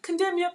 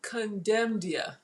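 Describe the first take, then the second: First: "Condemnia" said quickly on a high pitch; quick pronunciation. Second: "Condemnia" drawn out slowly and softly; slow pronunciation. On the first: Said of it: "please correct me". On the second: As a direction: sound out "Condemnia" carefully, syllable by syllable. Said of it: "have I been saying it wrong". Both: Shown as a demonstration.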